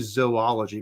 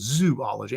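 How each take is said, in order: First: The word begins with a 'zoh' sound. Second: The word begins with a 'zoo' sound. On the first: The speaker calls it right. "I think it's probably should be zoology because it's spelled, you know, Z O O L O G Y" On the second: The speaker calls it wrong. "it'd have to have three O's, right? Z O O and then ology, so zoology, and that's not how it is"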